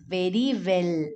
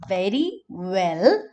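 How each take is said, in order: First: Both words start with the same lip-bitten sound. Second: The v and w sounds are clearly distinct. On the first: The speaker calls it wrong. "we tend to bite our lower lip in both the words" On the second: The speaker calls it right. "Instead of saying very well"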